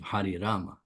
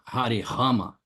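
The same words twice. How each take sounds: First: Rama begins with an R sound. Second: Rama begins with a rough, noisy H sound. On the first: The speaker calls it right. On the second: The speaker calls it wrong.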